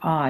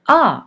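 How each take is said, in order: First: It is said at a lower pitch. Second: It is said at a higher pitch. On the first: "that's suggesting a lower pitch" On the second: ""Ah" is a higher pitch"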